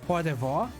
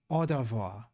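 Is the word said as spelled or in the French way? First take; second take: as spelled; French way. First: The word is read out letter by letter. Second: The word follows French sounds with silent letters.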